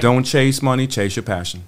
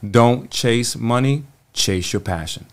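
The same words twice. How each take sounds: First: It is said at a normal pace. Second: It is said very slowly.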